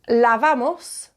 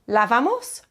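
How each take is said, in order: First: The voice does not rise at the end. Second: The voice rises at the end. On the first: It states that we are washing. "we are washing" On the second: It asks whether we are washing. "you need the rising intonation"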